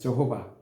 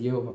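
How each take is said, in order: First: The name begins with a 'j' sound. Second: The name begins with a 'ye' sound. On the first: This is the English form of the name. "영어 성경이다 보니까 그들이 가지고 있는 성경에는 저호바로 나와요" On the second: This is the Chinese form of the name. "중국에서는 예호바라고 했어요"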